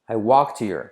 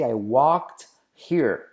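First: The h in 'here' is dropped. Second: The h in 'here' is pronounced. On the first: "Salto la H" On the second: "También puedes decir así"

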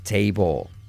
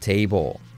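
Both takes have the same delivery.

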